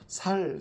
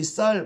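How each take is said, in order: First: The word begins with a plain s sound. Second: The word begins with a tense s sound. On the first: This is the regional pronunciation. "이 쌀 발음이 안 돼서 살, 살 이렇게 말한다고 하죠" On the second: This is the standard pronunciation. "우리 표준어로 어, 쌀이라는 말이 있는데요"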